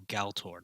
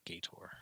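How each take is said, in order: First: The word is said with an L sound. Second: The word is said without an L sound. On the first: The speaker calls it right. "There's an L in there" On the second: The speaker calls it wrong. "not Gator"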